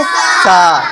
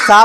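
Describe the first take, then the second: First: सा with a long, held "aa"; सा, sustained as a model for the class; drawn-out vowel. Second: Said in the usual way. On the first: Shown as a demonstration. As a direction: stretch the vowel of सा. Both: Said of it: "थोड़ा खींच कर बोलेंगे".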